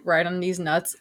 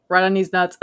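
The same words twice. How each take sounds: First: Said in the usual way. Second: Mildly robotic, evenly pitched quote; robot imitation. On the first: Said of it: "you said". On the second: Teasing a friend over how he said it, light robot imitation. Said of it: "like you were a robot".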